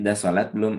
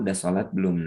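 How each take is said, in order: First: The voice is a little louder, still gentle. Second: The voice is soft and gentle. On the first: The speaker is reminding a bit more firmly. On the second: The speaker is asking kindly.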